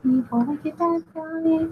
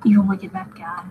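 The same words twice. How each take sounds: First: Higher, slow hammed-up evil announcement; slow and high, playing at menace; mock villain voice. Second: Whispered villain intro; whispered evil bad guy. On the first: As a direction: ham up the villain's name. Repeats villain name, theatrical. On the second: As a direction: hush it like a secret. Drawing villain, whispered name.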